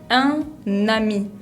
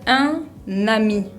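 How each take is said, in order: The two takes are said the same way.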